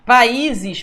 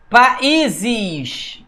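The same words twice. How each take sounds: First: Said in the usual way. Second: Países drawn out as pa-í-ses, the í standing alone; países split slowly at the hiatus; syllable division. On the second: Shown as a demonstration. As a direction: hit a lengthened í in países. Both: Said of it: "O I sozinho na sílaba".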